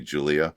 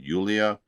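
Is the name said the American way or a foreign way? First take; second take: American; foreign. First: The name is said with an American pronunciation. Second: The name is said with a foreign pronunciation. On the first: This is how Americans say it. "I'm going to say Julia because that's how we pronounce it" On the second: This is how the singer's own language says it. "I assume you probably pronounce it [name]"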